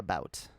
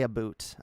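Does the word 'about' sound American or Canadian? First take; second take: American; Canadian. First: The vowel is the typical American 'about' sound. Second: The vowel is the stereotyped Canadian 'aboot' sound. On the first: This is the way the speaker actually talks. "I say about. ... I've become too Americanized" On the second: This is the way the speaker does not talk. "I don't say about"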